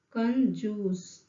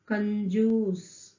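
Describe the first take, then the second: No difference in how they are said.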